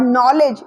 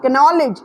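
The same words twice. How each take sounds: First: "knowledge" said as NOL-edge; silent K in "knowledge". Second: "knowledge" mispronounced as kuh-NOL-edge; K sounded in "knowledge". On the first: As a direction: start "knowledge" straight on the N, no K. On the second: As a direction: voice a K before the N in "knowledge". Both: Shown as a demonstration. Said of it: "it's not knowledge".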